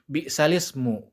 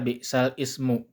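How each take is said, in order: First: The words run together with no break before 'ismu'. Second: A break and fresh vowel come before 'ismu'. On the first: The speaker calls it right. "leburnya seperti itu" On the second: The speaker calls it wrong. "Bukan dibaca"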